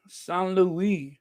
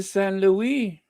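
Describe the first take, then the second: First: San Luis with French vowels, "sahn loo-EE"; French-style pronunciation of San Luis; French accent. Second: Said in the usual way. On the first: Shown as a demonstration. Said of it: "French accent".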